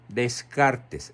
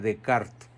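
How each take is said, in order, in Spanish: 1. El nombre se lee letra por letra. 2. El nombre se dice a la manera francesa. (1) "Se escribe" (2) "se pronuncia"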